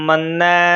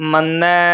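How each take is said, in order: The two takes are said the same way.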